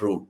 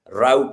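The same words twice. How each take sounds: First: It is said with a British pronunciation. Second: It is said with an American pronunciation. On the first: "and not route" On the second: "you say route"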